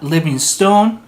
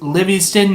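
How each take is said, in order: First: The last syllable sounds like 'stone'. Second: The last syllable is reduced and short. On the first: The speaker calls it wrong. "not Livingstone" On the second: The speaker calls it right. "pronounced Livingston"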